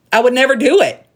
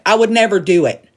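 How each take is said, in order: First: "I would never do it" pitched higher, with the weight on "do"; indignant repeat, stress on "do"; emphatic repeat. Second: Said in the usual way. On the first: Real, not acted. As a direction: hammer the repeat home, higher on "do".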